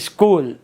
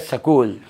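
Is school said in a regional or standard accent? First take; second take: standard; regional. First: The word is said in the standard way. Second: The word is said in a regional way. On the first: "अपने यहाँ कहते हैं" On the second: "Ganganagar चले जाओ तो वहाँ कहते हैं"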